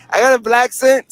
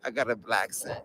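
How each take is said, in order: First: Higher-pitched, surprised echo; amused disbelief. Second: Low, much softer repeat; quiet musing. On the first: Streamer reacting to viewers naming his accent, surprised. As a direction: repeat it back as if startled by the label. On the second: Streamer mulling over the accent label alone, quietly musing. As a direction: say it low, to yourself. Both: Real, not acted.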